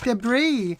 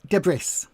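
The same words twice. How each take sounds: First: The final S sound is left silent. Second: The final S sound is pronounced. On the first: The speaker calls it right. "The S is silent. It's debris" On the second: The speaker calls it wrong. "increasingly, people say debris"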